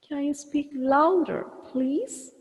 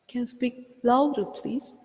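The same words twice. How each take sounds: First: Louder and please are stretched with raised pitch. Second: Louder and please are said at normal length. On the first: "You can see louder and please expanded" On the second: "we need to put a break here, a pause here"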